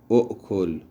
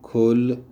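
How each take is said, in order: First: The word starts with an extra 'u' syllable. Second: The word is a single short syllable. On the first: This is the form before the reduction. The speaker calls it wrong. "این صورت قبل از تخفیف" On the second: This is the form after the reduction. The speaker calls it right. "صورت صحیح و بعد از تخفیفشم"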